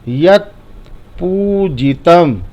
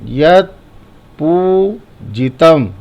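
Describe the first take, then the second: No difference in how they are said.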